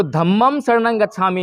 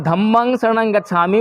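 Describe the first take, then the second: First: "धम्मं शरणं गच्छामि" with the ं endings as "m"; Sanskrit-style pronunciation. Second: "धम्मं शरणं गच्छामि" with the ं endings as "ng"; Pali-style pronunciation. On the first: Teacher explaining the Sanskrit version to students, "m" endings. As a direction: say "धम्मं" as "dham-mam", lips closed. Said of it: "वो बोलते हैं संस्कृत में". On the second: Teacher explaining the Pali version to students, "ng" endings. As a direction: say "धम्मं" as "dham-mang", ending in the nose. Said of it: "वो पाली भाषा है". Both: Shown as a demonstration.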